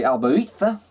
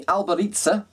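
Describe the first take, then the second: First: Albaritza with a lisped Spanish Z. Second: Albaritza with the Z said "ts". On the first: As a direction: say Albaritza ending in "tha", Z as in "thin". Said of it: "the Z and the A". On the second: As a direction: say Albaritza ending in a hissed "tsa", pitched up. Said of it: "depending on how you want to pronounce". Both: Shown as a demonstration.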